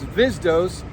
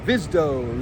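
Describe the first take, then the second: First: The name ends with an s sound. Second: The name ends without an s sound. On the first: The speaker calls it right. "it's Vizdos" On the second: The speaker calls it wrong. "a lot of people around here just go Vizdo"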